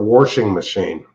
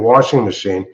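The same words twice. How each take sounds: First: It is said in a coal country accent. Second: It is said in a standard accent.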